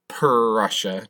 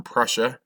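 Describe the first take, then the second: First: "Prussia" with the opening "Pr" stretched out, puh-rrussia; exaggerated first sound. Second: Said in the usual way. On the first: Shown as a demonstration. Teacher making sure students don't hear Russia, "Prussia" with drawn-out Pr. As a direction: lean hard on the P and R of "Prussia". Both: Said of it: "not Russia".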